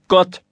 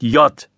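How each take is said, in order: First: The word begins with a hard g sound. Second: The word begins with a y sound. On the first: The speaker calls it right. "es heißt Gott" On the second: The speaker calls it wrong. "Es heißt nicht J"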